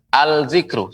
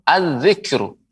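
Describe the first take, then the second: First: "al-zikru" with the l clearly sounded; wrong-way demo of "al-zikru", l not merged; unmerged lam. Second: "az-zikru" with lam merged into a doubled z; assimilated lam. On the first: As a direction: pronounce the l before z in "al-zikru". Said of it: "tidak pengucapannya dengan". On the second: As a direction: correct model of "az-zikru", no l heard. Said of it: "Tapi dilebur". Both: Shown as a demonstration.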